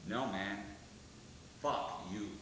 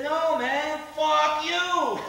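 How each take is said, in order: First: Much lower, quiet, slow menace; menacing low comeback. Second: Higher and much louder, a hammed-up snarl; loud sneering comeback. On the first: Retold or imitated. Frankie answers the hippie with a low, quiet menace. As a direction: say it low and dead calm with a knife out. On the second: Hippie driver yells back at Frankie, high and loud. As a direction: shout it back with a gun in his face. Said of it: "head and says".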